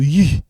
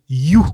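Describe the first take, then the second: First: "you" with a fronted French u; French sound. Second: "you" with a back oo; African-name sound. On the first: Teacher showing the other way to use it, "you" as yü. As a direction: say "you" as yü, lips rounded. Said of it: "It doesn't sound like in French". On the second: Teacher showing how some African names sound, "you" as yoo. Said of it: "it sound like". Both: Shown as a demonstration.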